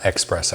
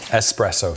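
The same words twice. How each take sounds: First: The word begins with an 'ex' sound. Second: The word begins with an 'es' sound. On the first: The speaker calls it wrong. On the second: The speaker calls it right. "There's no X in it"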